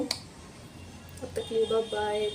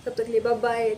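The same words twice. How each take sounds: First: Slow, softer, stretched-out bye bye; lingering slow farewell, softer; slow drawn-out goodbye. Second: Said in the usual way. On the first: Shown as a demonstration. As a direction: drag out the goodbye lazily.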